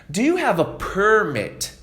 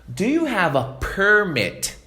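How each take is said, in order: Both takes have the same delivery.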